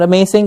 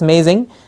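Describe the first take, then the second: First: The middle consonant is a hissing S sound. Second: The middle consonant is a buzzing Z sound. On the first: The speaker calls it wrong. "it's not" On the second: The speaker calls it right. "that's a Z sound"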